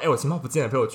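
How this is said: It sounds anxious and hurried.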